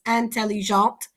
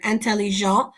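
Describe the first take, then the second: First: "intelligent" with a clear T sounded at the end, as in intelligente; "intelligent" finishing crisply on the T; T pronounced. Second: "intelligent" with the final T left silent, ending on the nasal vowel. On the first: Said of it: "so I pronounce the T". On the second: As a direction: say "intelligent" the French masculine way, no T at the end. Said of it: "I don't pronounce that T". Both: Shown as a demonstration.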